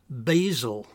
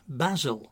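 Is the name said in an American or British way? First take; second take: American; British. First: The name is said in an American way. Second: The name is said in a British way. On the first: This is the way the dog's name should not be said. The speaker calls it wrong. "not Basil" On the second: This is the way the dog's name should be said. The speaker calls it right. "I've had to train my neighbours to say Basil"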